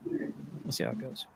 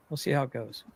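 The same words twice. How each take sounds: First: Whispered. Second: Said in the usual way. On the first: Shown as a demonstration. Repeats the line, then whispers it.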